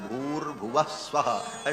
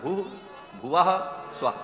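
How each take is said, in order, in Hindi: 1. शब्द आपस में जुड़ जाते हैं, बीच में र की ध्वनि के साथ। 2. हर शब्द अलग-अलग बोला जाता है, बीच-बीच में रुककर। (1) "तीनों को जब एक साथ उच्चारण किया जाता है" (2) "मूलतः वो तीन व्याहृतियां अलग अलग हैं"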